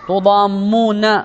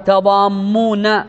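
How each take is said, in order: First: The first syllable has the vowel u. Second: The first syllable has the vowel a. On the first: "تقال تو بفتح بالضم" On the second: "وتقال تاء بالفتح"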